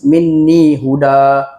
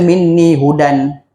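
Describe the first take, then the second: First: The last word ends in a long vowel, no n. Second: The last word ends with an n sound. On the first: The reader stops at this word. The speaker calls it right. "bila kita berhenti dekat huda, kita akan baca satu baris" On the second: The reader carries on without stopping. The speaker calls it wrong. "Tak boleh kita baca minni hudan"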